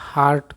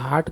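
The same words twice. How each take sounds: First: The r after the vowel is pronounced. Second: The r after the vowel is silent. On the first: "American English में हार्ट कह सकते" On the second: "British English में इसको हार्ट कह सकते हैं"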